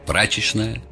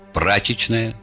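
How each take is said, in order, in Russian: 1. Произнесено с московским выговором. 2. Произнесено с петербургским выговором. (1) "Московский выговор" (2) "Питерский выговор"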